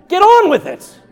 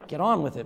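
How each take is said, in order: First: Sudden high, very loud outburst; exasperated shout. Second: Said in the usual way. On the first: Acted. Pastor interrupts an endless greeting, exasperated shout. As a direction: cut them off with a yell.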